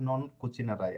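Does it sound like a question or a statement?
statement. It is said with a plain statement intonation. The speaker states that you will not cook. "Normally বলেন"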